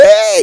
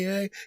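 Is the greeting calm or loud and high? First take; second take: loud and high; calm. First: It is said loudly with high pitch. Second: It is said calmly at moderate pitch.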